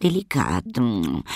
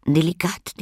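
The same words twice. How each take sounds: First: Relishing lady. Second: High, savoring little lady; relishing lady. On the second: Little lady tasting crumbs, high and pleased. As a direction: smack the word Delikat with high delight. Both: A narrator's reading. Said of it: "knusperte sie".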